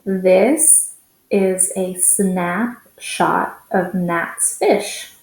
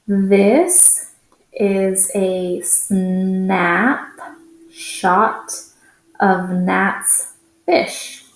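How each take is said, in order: First: Faster read. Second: Each word drawn out slowly; slow first read. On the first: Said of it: "let's read it a little bit faster". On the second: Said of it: "let's read it together". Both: Shown as a demonstration.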